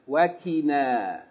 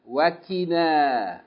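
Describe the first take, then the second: No difference in how they are said.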